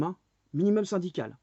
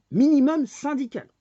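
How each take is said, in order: First: Said in the usual way. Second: MINIMUM syndical thrown out high and loud; mocking loud repeat. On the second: Ranting vlogger repeats the phrase to viewers, shouting. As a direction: hammer it home a second time, much higher.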